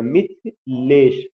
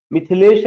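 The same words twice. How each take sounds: First: Mithilesh slowly split into मिथ and लेश; syllable by syllable. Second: Said in the usual way. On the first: Shown as a demonstration. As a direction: break Mithilesh in two with a gap before लेश. (मिथिलेश को धीरे से दो हिस्सों में, मिथ... लेश) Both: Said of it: "Mithilesh में दो सिलेबल है".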